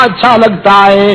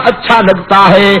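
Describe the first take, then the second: No difference in how they are said.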